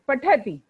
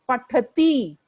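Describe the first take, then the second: First: The final vowel is short. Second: The final vowel is long. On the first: The speaker calls it right. "छोटी की मात्रा है" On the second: The speaker calls it wrong. "ना कि"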